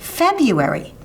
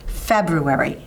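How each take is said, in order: First: The r after the b is left out. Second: The r after the b is clearly sounded. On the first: The speaker calls it wrong. "Many people like to say February, but that's not how you say it" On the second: The speaker calls it right. "It coincides exactly with the pronunciation of the month"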